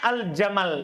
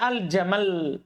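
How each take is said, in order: First: The final consonant is single at the stop. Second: The final consonant is doubled at the stop. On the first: "Seharusnya al-jamal. Itu kan biasa" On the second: "Tasdid, berhenti dengan tasdid"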